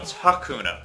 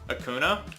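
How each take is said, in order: First: The word starts with an audible h sound. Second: The word starts straight on the vowel. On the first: The speaker calls it right. "No, it's Hakuna" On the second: The speaker calls it wrong. "You think it's Akuna?"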